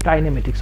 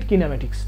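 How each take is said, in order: First: The first syllable sounds like 'kye'. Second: The first syllable sounds like 'kee'. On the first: "অনেকে কাইনেমেটিক্স বলে" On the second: "অনেকে কিনেমেটিক্স বলে"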